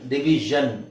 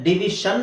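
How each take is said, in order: First: The ending is said with a voiced 'zh' sound. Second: The ending is said with a voiceless 'sh' sound. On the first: The speaker calls it right. "ಡಿವಿಷನ್ ಡಿವಿಷನ್ ಡಿವಿಷನ್ ಜನ್" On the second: The speaker calls it wrong. "ಡಿವಿಷನ್ ಅಲ್ಲ"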